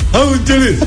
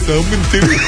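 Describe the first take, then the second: First: It is said very energetically and brightly. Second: It is said flatly, with little energy. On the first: The speaker sounds fully enthusiastic. The speaker calls it right. "Mai energic" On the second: The speaker sounds nervous and unenthusiastic. The speaker calls it wrong. "Nu așa, mai vesel"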